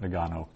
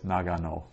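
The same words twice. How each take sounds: First: The first syllable is shortened and reduced. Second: The first syllable is full and unreduced. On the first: The speaker calls it wrong. "generally we'd pronounce that as something like Nagano" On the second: The speaker calls it right. "no, it's Nagano"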